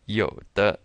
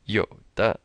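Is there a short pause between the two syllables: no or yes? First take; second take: yes; yes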